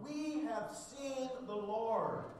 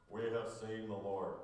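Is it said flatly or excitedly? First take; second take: excitedly; flatly. First: It is said excitedly, with great enthusiasm. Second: It is said flatly, without enthusiasm.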